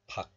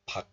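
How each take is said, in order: First: The syllable ends in a k sound. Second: The same.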